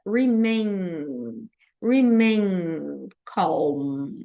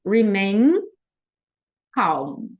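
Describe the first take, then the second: First: "remain calm" slow, mouth held wide open. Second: "remain" with lips closing hard on the final M, then "calm"; closed M in remain. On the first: Teacher to flight-attendant students: slow open-mouthed "remain calm". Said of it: "deixar minha boca aberta". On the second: Teacher showing students the closed M: "remain calm". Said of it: "E o M eu vou fechar". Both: Shown as a demonstration.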